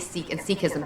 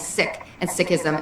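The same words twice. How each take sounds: First: Said with the anglicized British pronunciation. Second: Said with the community's own pronunciation. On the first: It carries over the colonizers' usage. The speaker calls it wrong. "and not say" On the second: It reclaims the faith's own name. The speaker calls it right. "we too should start saying"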